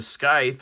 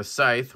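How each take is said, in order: First: Scythe said as "skythe", K after the S; hard C. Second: Scythe said as "sythe", no K; silent C. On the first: Reviewer naming the other knife, scythe with hard C. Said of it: "I say scythe". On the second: Reviewer allowing the other version, scythe with silent C. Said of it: "You don't pronounce the, this, um, C". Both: Shown as a demonstration.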